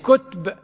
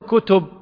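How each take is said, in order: First: The t has no vowel after it. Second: The t is followed by a u vowel. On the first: "بسكون التاء" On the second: "بضم التاء"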